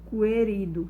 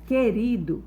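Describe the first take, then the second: First: A separate U sound follows the K. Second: The K sound goes straight into the E. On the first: The speaker calls it wrong. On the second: The speaker calls it right.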